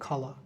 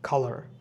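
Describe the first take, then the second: First: It is said without the final r sound. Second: It is said with the final r sound. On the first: "British ইংলিশে বলা হয় খালা" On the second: "American ইংলিশে আমরা কালার বলতে পারি"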